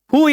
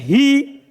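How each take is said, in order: First: The h is followed by an u vowel. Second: The h is followed by an i vowel. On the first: "bisa di dhamma" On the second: "Itu akan dibaca hi"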